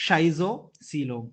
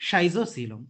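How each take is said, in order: First: Schizocoelom said slowly, each syllable spelled out; teacher modelling Schizocoelom slowly. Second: Said in the usual way. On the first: Shown as a demonstration. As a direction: drag out Schizocoelom for the class to copy. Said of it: "पहले दो तीन बार आपको थोड़ा अजीब लगता है". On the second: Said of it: "बार बार when we pronounce it ना".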